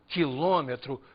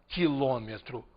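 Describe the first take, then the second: The two takes are said the same way.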